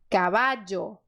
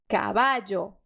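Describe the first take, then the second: Both takes have the same delivery.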